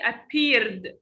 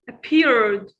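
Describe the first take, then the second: First: The ending is said as an extra syllable. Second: The ending is only a short d sound. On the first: The speaker calls it wrong. "Don't say appeared" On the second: The speaker calls it right. "No, it's appeared. That sound only"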